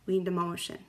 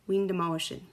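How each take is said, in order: No difference in how they are said.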